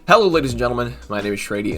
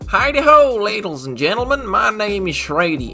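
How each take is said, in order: First: It is said in his normal voice. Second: It is said in a put-on accent.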